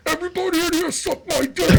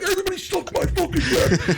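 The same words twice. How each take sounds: First: High, yelling into the walkie-talkie; squealing shouted prank call. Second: High shout breaking into laughter; giggly shrieked prank call; laughing prank shout. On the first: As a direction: blast it out like a prank over the speaker. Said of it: "I'd be like this". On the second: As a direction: yell it while cracking up. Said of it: "I'd be like". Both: Retold or imitated.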